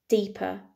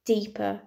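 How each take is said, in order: Both takes have the same delivery.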